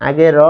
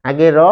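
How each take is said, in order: No difference in how they are said.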